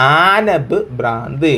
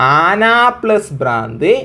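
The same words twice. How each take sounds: First: ആനബ് ഭ്രാന്ത് slow and fused, with the b sound linking them; modelling the joined answer after the sum; joined form. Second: ആന plus ഭ്രാന്ത് as three separate words, no joining; stating the sum before the joined answer; separate parts. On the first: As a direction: give the answer ആനബ് ഭ്രാന്ത് slowly as one word. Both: Shown as a demonstration. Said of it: "അങ്ങനെ pronounce ചെയ്തോ".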